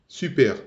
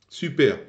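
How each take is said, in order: The two takes are said the same way.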